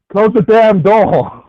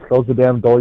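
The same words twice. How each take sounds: First: It is yelled very loudly. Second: It is said at a normal, quiet volume.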